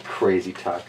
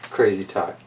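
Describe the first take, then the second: No difference in how they are said.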